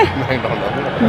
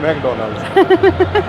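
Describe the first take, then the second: First: Slow careful say. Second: Calling out the name like a playful chant; drawn-out high singsong. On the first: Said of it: "McDonald में". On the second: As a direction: stretch McDonald's out slowly, much higher. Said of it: "बोलना तो". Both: Pretend.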